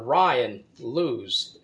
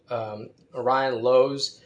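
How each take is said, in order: First: The surname has an 'oo' vowel, like 'lose'. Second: The surname has an 'oh' vowel, like 'nose'. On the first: The speaker calls it wrong. "It looks like the verb to lose" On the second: The speaker calls it right. "so it could be Lowe's"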